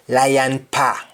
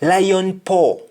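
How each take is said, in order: First: "pa" said PAH; "lion pa" with open ah ending; Jamaican ah form. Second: "paw" said with rounded aw; "Lion paw" high, round vowel on paw; English aw form. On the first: Teacher answering in Jamaican, "pa" as pah. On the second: Teacher giving the English phrase, "paw" with round aw. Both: Shown as a demonstration. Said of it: "we say double A H".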